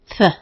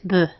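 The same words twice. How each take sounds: First: The th sound is voiceless, without vocal buzz. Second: The th sound is voiced, with vocal buzz. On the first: "This is its unvoiced sound" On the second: "The voiced sound of th is th"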